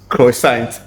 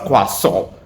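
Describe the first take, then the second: First: Every written letter of the word is sounded. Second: Several written letters of the word stay silent. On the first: The speaker calls it wrong. "That is wrong" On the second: The speaker calls it right. "It is pronounced croissant"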